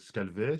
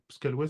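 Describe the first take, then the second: First: The name is said with a v sound. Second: The name is said with a w sound. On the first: "si on dit, heu, Scalvay" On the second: "ça me semble être la la bonne prononciation"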